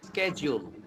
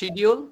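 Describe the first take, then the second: First: The middle consonant is a j sound. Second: The middle consonant is a plain d sound. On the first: The speaker calls it right. "শিডিউলটা হচ্ছে স্কেজুল" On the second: The speaker calls it wrong. "বলি না আমরা শিডিউল"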